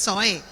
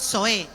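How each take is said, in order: First: Zoe stressed on the final e, zo-É; Colón pronunciation. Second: Zoe stressed on the first syllable, ZO-e; how others say Zoe. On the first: Pastor shows how people from Colón say Zoe, stress on the final E. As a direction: Zoe with the stress pushed onto the last syllable, Colón style. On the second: Pastor shows the congregation how others pronounce Zoe, stress on ZO. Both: Shown as a demonstration. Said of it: "poner el acento en la última tilde".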